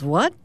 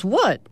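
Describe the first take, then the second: First: WHAT rising as a question. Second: WHAT arched high, then falling; echoed what. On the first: Rob reacting to the cat's odd question, puzzled rising WHAT. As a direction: ask WHAT with a lift at the end. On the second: Cat echoing Rob's question, WHAT swooping up and down. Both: Acted.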